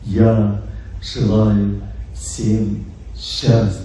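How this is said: It is said colored by the speaker's mood. It changes the listener's mood. "Второй звук – это звук настроения"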